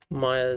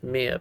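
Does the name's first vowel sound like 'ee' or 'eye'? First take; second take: eye; ee. First: The first vowel sounds like 'eye'. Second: The first vowel sounds like 'ee'. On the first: The speaker calls it right. "it's actually" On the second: The speaker calls it wrong. "I said Mia, but it's actually"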